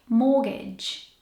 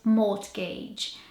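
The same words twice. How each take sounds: First: The R and T are silent; it doesn't end like 'age'. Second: The R and T are sounded; it ends like 'age'. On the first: The speaker calls it right. "But the R and the T are silent and the suffix does not sound like age. It actually sounds like" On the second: The speaker calls it wrong. "If you were to pronounce this word how it's spelled"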